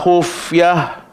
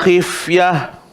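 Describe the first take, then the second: First: The first syllable has the vowel u. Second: The first syllable has the vowel i. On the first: This is one transmitted reading of the verse. "Imam Hafs baca dengan wa khufyah" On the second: This is another transmitted reading of the verse. "Imam Syu'bah baca dengan wa khifyah"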